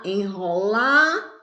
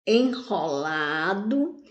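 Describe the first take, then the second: First: "enrolado" with LA stretched and rising, DO set apart; stress on LA. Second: Said in the usual way. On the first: Shown as a demonstration. Teacher showing the strong syllable, "enrolado" with a long stressed LA. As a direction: draw out the LA in "enrolado", then drop in the DO. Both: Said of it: "O lá é a sílaba mais forte".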